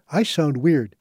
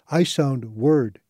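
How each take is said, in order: First: Said in the usual way. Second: "word" said for "weird", slow; accented mispronunciation. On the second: Shown as a demonstration. Reading a patient's garbled phrase, slow accented "word". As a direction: say "I sound word." with weird as "word", slowly. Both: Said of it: "except it came out as".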